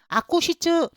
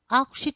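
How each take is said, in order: First: The ku syllable is pronounced fully and strongly. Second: The ku syllable is muffled and nearly silent. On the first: The speaker calls it wrong. "너무 강하게 발음을 하시면 안 되시고" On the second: The speaker calls it right. "거의 입안에서 묻히듯이 묵음을 하셔야 됩니다"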